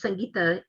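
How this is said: The name is said with Hindi pronunciation.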